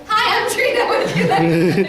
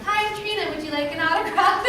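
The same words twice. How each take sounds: First: Greeting that breaks into laughter, slowing down; cheery line dissolving into giggles; laughing through it. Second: Bright, much higher friendly fan greeting; eager celebrity greeting, pitched well up; chirpy greeter. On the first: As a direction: try the pitch again and crack up. Repeats greeting after "Who?. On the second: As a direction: sell the autograph like a cheery hostess. Perky greeting to fans. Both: Retold or imitated.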